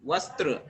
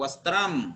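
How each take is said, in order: First: The word ends without an m sound. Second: The word ends with an m sound.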